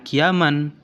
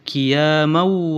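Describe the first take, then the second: First: The ending N is pronounced clearly. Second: The ending N merges into the following W. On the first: The speaker calls it wrong. "bukan qiyaman" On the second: The speaker calls it right. "harus ditasdidkan ke huruf yang berikutnya"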